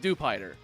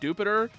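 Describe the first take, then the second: First: It begins with a plain 'dew' sound. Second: It sounds like the planet name Jupiter. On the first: The speaker calls it right. "It's a spider. It's Dewpider" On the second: The speaker calls it wrong. "if they pronounce it Dupiter in the anime, then they're wrong"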